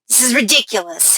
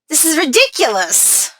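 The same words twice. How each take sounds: First: It is said harshly, biting out ridiculous. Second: It is said high-pitched and smiling, musically.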